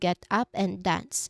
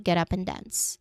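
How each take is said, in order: First: The words are said separately, not linked. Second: The words run together as one sound. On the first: The speaker calls it wrong. "Instead of" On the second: The speaker calls it right. "the whole thing flows like one long sound"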